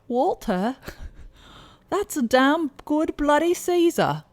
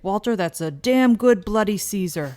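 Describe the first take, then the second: First: It is said in a put-on British accent. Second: It is said in the speaker's own accent.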